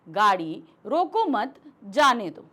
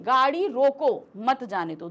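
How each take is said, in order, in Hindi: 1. विराम 'mat' शब्द के बाद है। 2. विराम 'roko' शब्द के बाद है। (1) "जब हमने यहां पर अल्प विराम लगाया तो हम इसके बाद रुके" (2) "दूसरे वाक्य में हम गाड़ी को रोकने के लिए बोल रहे हैं"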